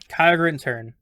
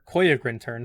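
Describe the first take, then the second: First: The name is said with an A vowel. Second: The name is said with an O vowel. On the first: The speaker calls it wrong. "I've always been pronouncing it wrong" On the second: The speaker calls it right. "It's an O, not an A"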